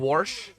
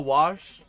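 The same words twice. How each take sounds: First: The word has a full R sound in it. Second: The word has little or no R sound. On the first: "I don't go all the way to" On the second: "I maybe have that slight R in it, but not really"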